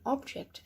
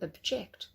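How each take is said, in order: First: The stress is on the first syllable. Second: The stress is on the second syllable. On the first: It is a noun, a thing. "an object" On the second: It is a verb, to disagree. "to object"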